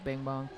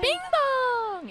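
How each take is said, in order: First: It is said in a plain, flat way. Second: It is said in a very animated, lively way.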